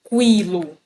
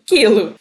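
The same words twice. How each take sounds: First: A W sound follows the K sound. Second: No W sound follows the K sound. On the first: The speaker calls it wrong. "Eu não falo quilo" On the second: The speaker calls it right. "eu falo quilo"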